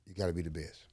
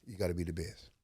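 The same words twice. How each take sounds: The two takes are said the same way.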